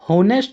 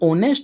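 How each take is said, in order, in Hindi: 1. शब्द की शुरुआत H की आवाज़ से होती है। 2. शब्द स्वर से शुरू होता है, H नहीं है। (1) "होनेस्ट नहीं होता" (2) "ये ओनेस्ट होता है"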